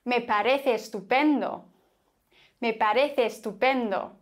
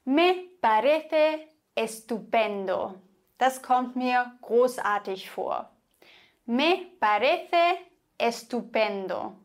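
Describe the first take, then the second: First: "parece estupendo" run together on one e; "parece" flowing straight into "estupendo"; linked vowels. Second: Slow "Me parece estupendo" with both e's kept apart; careful, vowels not joined; separate vowels. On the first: Teacher showing fluent Spanish: merged e's. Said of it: "Und dann würden sie sagen". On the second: Teacher showing the careful form: separate e's. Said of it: "Normalerweise würde man sagen". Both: Shown as a demonstration.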